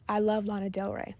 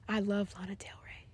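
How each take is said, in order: First: The voice is at a moderate level. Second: The voice is low and subdued. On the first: "That was medium" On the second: "That was low"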